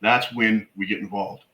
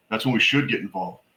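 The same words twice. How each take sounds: First: Said in the usual way. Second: Should given the weight, falling after it; correcting yourself by stressing should. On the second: Shown as a demonstration. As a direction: lean on the word should.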